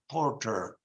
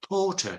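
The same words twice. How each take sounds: First: It is said in an American accent. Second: It is said in a British accent.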